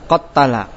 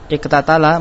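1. Kedua bunyi t menyatu menjadi satu bunyi yang ganda. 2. Kedua bunyi t dipisahkan oleh vokal.

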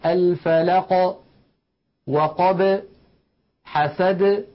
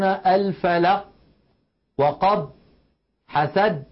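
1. تُنطق الحروف الساكنة الأخيرة مع ارتداد خفيف. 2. تُغلق الحروف الساكنة الأخيرة فجأة دون إطلاق. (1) "بل ليخرجونه بالتباعد كما ذكرنا" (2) "لا يقولون الفلق وقب حسد، لا تفعل العرب ذلك أبدا"

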